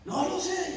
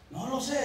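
First: Higher, sobbing wife's voice. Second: A touch of a tearful wife; lightly voiced, holding back tears; wife's tearful reply. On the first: Retold or imitated. Wife in the bathroom sobs her answer to her husband, higher. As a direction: let the tears break through the words. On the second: Wife locked in the bathroom answers her husband, mildly tearful. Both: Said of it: "y empezó a sollozar más".

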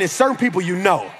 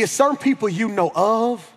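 First: Quicker phrase falling firmly on "know"; stress on "know". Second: "know of" held up, left hanging on "of"; stress on "of". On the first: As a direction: land low and sure on "know". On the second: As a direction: lean on "of", as mere acquaintance. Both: Shown as a demonstration.

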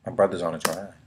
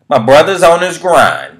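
First: Said in the usual way. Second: High, loud and slow hype call; hyped shout. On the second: Acted. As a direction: belt it out like a hype man. Repeated catchphrase, hyped second take.

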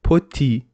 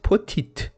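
First: Poti ending on the vowel, no last T; silent final T. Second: Potit with the last T pronounced; final T sounded. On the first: Teacher giving the right French word, final T silent. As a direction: say poti, dropping the written final T. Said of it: "at the end of the word is not pronounced". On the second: Teacher showing learners the wrong reading, final T sounded. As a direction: say potit, ending on a hard T. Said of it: "Why we don't say it". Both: Shown as a demonstration.

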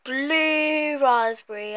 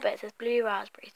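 First: Said in the usual way. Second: Unvoiced whisper of the label. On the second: Real, not acted. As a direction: whisper the flavour name.

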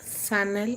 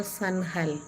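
First: Sanal said without an H; trying a pronunciation. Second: Sanhal with a sounded H; trying a pronunciation. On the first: Streamer unsure of a viewer's name, tries Sanal without H. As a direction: try the name as "Sanal", no H sound. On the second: Streamer unsure of a viewer's name, tries Sanhal with an H. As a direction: try the name as "San-hal", H voiced in the middle. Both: Shown as a demonstration. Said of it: "how to pronounce your name".

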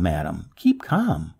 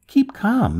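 First: Slow, softer keep calm; reassuring. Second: Called out. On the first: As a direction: settle her down gently. Repeats softer, slower. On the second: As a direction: shout it across to her. Young man soothes loudly. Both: A narrator's reading.

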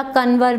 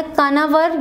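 First: कनवर with a short middle a; local name. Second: कनावर with a long middle aa; spelling-based कनावर, long aa in the middle; spelled name. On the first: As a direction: say कनवर as kan-var, the middle vowel clipped short. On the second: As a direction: say कनावर as ka-naa-var, stretching the second vowel. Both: Shown as a demonstration. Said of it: "या कनवर भी बोलते हैं".

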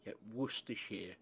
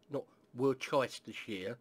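First: "Worcestershire" said short as WUSS-ter-sher; "Worcestershire" with the middle swallowed, WUSS-ter-shuh; correct pronunciation. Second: "Worcestershire" spelled out as WOR-ces-TYE-ster-shire; slow, every syllable of "Worcestershire" pronounced, wor-ces-ter; wrong pronunciation. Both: Shown as a demonstration.

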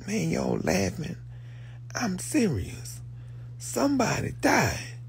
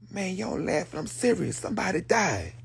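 First: High, hushed, half-whispered Ryan; quoting Ryan. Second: Softer, higher mock Ryan; a light take on Ryan, hushed and serious; quoting Ryan. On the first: Retold or imitated. Quoting Ryan, whispered and grave. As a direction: breathe it like grim news. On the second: Quoting Ryan announcing a death, softly. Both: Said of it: "Ryan said".

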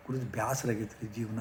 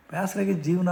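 First: Soft, tired "ಬ್ಯಾಸರಾಗೈತ್ರಿ ಜೀವನ"; a touch of a weary rich man; weary complaint. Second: "ಬ್ಯಾಸರಾಗೈತ್ ಜೀವನ" said higher and louder; retold exasperated cry; fed-up outburst. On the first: Retold or imitated. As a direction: sigh out the boredom with life quietly. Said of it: "ಅಂತಂದ್ರು". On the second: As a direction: blurt out the frustration with life. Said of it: "ಅಂದ್ರು ಅವರು".

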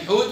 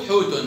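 First: First حوت ends on bare t; sukun ending. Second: حوت said as "hootun"; damma tanween. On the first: Teacher gives an example, حوت stopped on t. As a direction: say حوت with no final vowel. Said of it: "وفي السكون". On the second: Teacher gives an example, حوت ending in -un. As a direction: add -un to حوت. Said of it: "أو في التنوين". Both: Shown as a demonstration.

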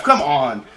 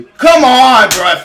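First: Said in the usual way. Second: Furious yell, much higher and louder; raging gamer. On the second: Real, not acted. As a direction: rage at the referee's call. Raging at the referee.

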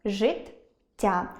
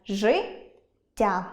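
First: Життя broken as жит — тя; життя split between the two т sounds; split doubled letters. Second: Життя broken as жи — ття; життя split before the double т; doubling carried over. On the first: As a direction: say жит, pause, then тя. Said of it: "можна переносити, розриваючи їх". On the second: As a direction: say жи rising, pause, then ття. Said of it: "можна переносити все подвоєння". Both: Shown as a demonstration.

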